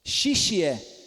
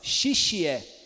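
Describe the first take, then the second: No difference in how they are said.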